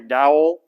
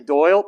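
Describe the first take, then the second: First: The name is said with a Texan accent. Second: The name is said in a standard way. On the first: The speaker calls it wrong. "they talk like this. So when they say, ... they say Dowell" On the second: The speaker calls it right. "they don't say Doyle"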